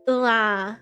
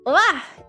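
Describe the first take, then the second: First: It sounds disappointed. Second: It sounds surprised.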